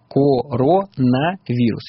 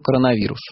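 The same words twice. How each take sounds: First: Each vowel is pronounced fully, as it is written. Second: The unstressed vowels are reduced, as in natural speech. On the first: This is how the word is spelled. "если про написание" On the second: This is how the word is actually pronounced. "Если вы про произношение"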